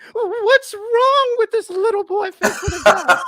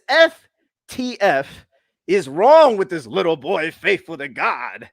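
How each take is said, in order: First: It is said in a put-on voice. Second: It is read in his normal voice.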